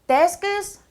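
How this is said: The pitch only jumps up sharply at the end. The speaker calls it wrong. "끝에만 그냥 무턱대고 올려요"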